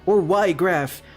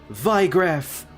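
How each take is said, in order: First: The name begins without a V sound. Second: The name begins with a V sound. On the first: The speaker calls it wrong. "instead of Ygraf" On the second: The speaker calls it right. "I'm pretty sure it is supposed to be Vigraf, considering it's German"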